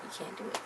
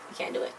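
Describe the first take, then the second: First: Breathy whisper, almost no voice. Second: Said in the usual way. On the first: Real, not acted. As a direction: drop to a secret whisper. Repeats her verdict, first whispered.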